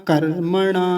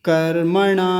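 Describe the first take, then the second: No difference in how they are said.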